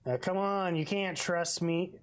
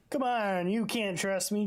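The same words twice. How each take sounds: First: Said in the usual way. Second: Mock pushy detective. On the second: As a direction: tease it like a bad cop. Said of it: "Imagine if you said that".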